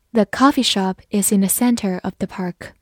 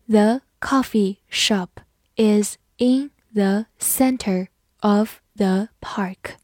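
First: Said in the usual way. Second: Slow, word by word, the last word fading out; slow reading. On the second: Shown as a demonstration. Teacher reads slowly to the class, slow reading. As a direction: read it slowly for learners. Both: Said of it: "好，慢慢来读".

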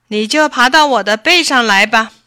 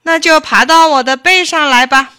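First: Loud, hearty tiger voice; confident tiger. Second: Loud, high, irritated order; angry fox. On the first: Tiger invites the fox onto its back, confident. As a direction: project it like a big tiger. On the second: Fox orders the rabbit onto its back, angrily. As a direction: snap it out in annoyance. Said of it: "狐狸生气地说". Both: A narrator's reading.

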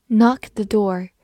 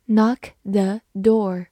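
First: Said in the usual way. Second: Slow, careful knock the door; slow repeat. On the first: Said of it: "example then repeated". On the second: Shown as a demonstration. Teacher repeats the phrase slowly for learners, slow and clear. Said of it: "example repeated slowly".

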